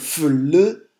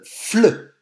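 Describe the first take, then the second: First: The two consonants are said separately with a break. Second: The two consonants are blended into one cluster. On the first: "Au lieu de dire f, le" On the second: "je vais les accrocher, les enrouler tous les deux"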